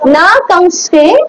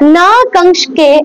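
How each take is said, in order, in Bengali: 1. দ্বিতীয় 'k' ধ্বনিটি ছোট ও হালকা। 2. দ্বিতীয় 'k' ধ্বনিটি দীর্ঘ করে ধরা হয়। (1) "একটুখানি ছোট করে" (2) "সরি"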